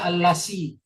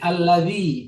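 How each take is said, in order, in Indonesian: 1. Konsonan di tengah itu bunyi 's' yang mendesis. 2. Konsonan di tengah itu bunyi 'dh' yang lembut. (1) "dia baca allasi" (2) "Seperti alladzi"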